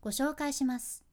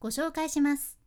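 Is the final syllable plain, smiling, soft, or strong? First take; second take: soft; smiling. First: The falling ending is said softly and gently. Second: The falling ending is soft, said with a smile.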